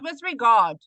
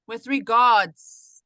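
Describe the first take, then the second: First: The last word ends without an s sound. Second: The last word ends with an s sound. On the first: The speaker calls it wrong. "not with regard" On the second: The speaker calls it right. "You have to say your S"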